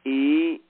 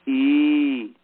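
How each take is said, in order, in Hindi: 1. स्वर बहुत थोड़ी देर तक बोला जाता है। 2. स्वर बहुत लंबा खींचा जाता है।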